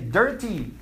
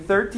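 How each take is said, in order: First: The word starts with a hard 'd' sound. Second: The word starts with a soft 'th' sound. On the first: "the Indian accent is, ... you say dirty" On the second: "Instead of saying 30"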